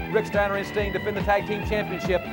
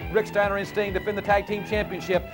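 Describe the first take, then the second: Both takes have the same delivery.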